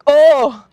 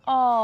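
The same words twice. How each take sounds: First: It sounds angry and sharp. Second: It sounds soft and tender.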